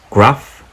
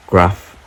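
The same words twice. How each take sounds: The two takes are said the same way.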